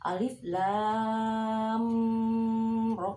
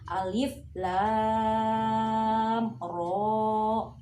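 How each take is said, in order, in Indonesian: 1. Mim menyatu dengan ro setelahnya. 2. Mim dibaca jelas sebelum ro. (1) "salah ya" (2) "dibaca benar"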